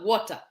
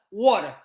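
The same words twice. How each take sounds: First: Said in the usual way. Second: "Water" with the t softened to a flap; American-style pronunciation. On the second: Shown as a demonstration. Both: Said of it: "Not water".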